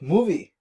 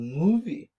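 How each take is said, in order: First: The word gets a strong, abrupt emphasis. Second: The word gets a light, flowing emphasis. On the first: The speaker calls it wrong. "it's not like movie" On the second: The speaker calls it right. "it's really fluid and smooth accent"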